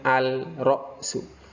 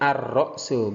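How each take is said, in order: First: The l is pronounced before the r sound. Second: The l merges into a doubled r sound. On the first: The speaker calls it wrong. "bukan al-ra'su" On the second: The speaker calls it right. "Ar-ra'su bukan al-ra'su"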